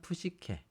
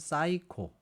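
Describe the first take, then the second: First: The word begins with a 'pu' sound. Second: The word begins with a 'sai' sound. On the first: This is the Latin pronunciation. "라틴어로 하면은 푸시케 이렇게 발음할 수가 있겠죠" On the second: This is the English pronunciation. "영어로 말하면 사이코"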